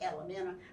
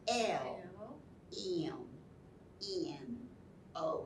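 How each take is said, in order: First: The letters are run together fast into one word. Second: Each letter is said slowly and separately.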